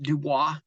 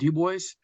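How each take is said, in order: First: It is said with a French pronunciation. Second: It is said with an American English pronunciation. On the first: This is how French speakers say it. "the French would pronounce it Dubois" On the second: This is how the locals say it. "We call it Du Bois"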